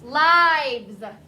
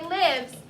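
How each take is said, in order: First: The vowel is long, like in 'life'. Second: The vowel is short, like in 'live'. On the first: It is the plural noun. The speaker calls it right. "It rhymes with life" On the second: It is the verb form. The speaker calls it wrong. "We don't say lives. That's the verb"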